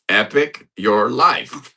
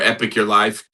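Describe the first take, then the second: First: It is said more slowly. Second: It is said at normal speed.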